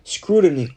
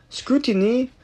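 First: "Scrutiny" aimed at an English accent, stress on SCRU; English-accent "Scrutiny", falling, no French accent; without French accent. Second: "scrutiny" in a French accent, said skuteenee with a French t; Quebec French speaker's take on "scrutiny", rising; French-accented "scrutiny", syllables even. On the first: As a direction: try "Scrutiny" the English way, crisp first syllable. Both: Shown as a demonstration. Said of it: "sans mon accent français".

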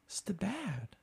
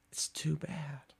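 First: Breathy pitying whisper; mock whisper. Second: Slower, drawn-out pitying whisper; slow mock whisper. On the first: Comic to a Boston bragger, a pitying mock whisper. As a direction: whisper it like fake sympathy. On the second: Comic to a Boston bragger, a slow pitying whisper. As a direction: stretch the whisper out, savoring it.

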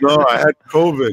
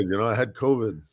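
First: Louder, pushing the word covid up; insisting. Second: Said in the usual way. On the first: Real, not acted. To the hosts, insisting he had covid, louder.

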